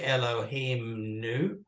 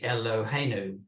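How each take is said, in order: First: The full word Elohim is said, with its m. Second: The m drops out, making a shorter word. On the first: The speaker calls it wrong. "you don't say Elohim nu" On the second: The speaker calls it right. "you say Eloheinu"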